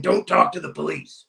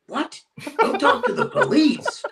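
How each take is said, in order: First: Said in the usual way. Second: High-pitched retold disbelief with a laugh; incredulous echo. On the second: Renter repeats the host's police warning, incredulous. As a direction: squeak the warning back in mock astonishment.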